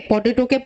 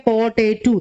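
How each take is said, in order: First: Said in the usual way. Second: Slow "পটেটো" in three separate parts, প-টে-টো; split into syllables. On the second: Shown as a demonstration. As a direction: pull "পটেটো" apart syllable by syllable. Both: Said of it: "তিনটা পার্টে বলি".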